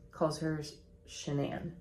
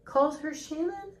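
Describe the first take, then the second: First: Shanann with the stress on the second syllable; pronounced Shanann. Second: Shannon with the stress on the first syllable; pronounced Shannon. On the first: Explaining the husband's way of saying it, Shanann stressed at the end. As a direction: say "Shanann" as shuh-NAN. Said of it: "I have it spelled phonetically". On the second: Explaining how dad says her name, Shannon stressed up front. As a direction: say "Shannon" as SHAN-un. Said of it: "her dad calls her Shannon". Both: Shown as a demonstration.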